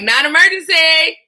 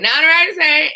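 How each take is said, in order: First: High, loud, hammed-up singsong pickup; exaggerated phone greeting. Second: High greeting, a little less loud; toned-down phone greeting. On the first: Call taker answers the phone, exaggerated high greeting. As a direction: overdo the cheery call answer, pitched way up. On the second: Retold or imitated. Call taker answers the phone, slightly toned-down high greeting. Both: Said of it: "I didn't say it like that".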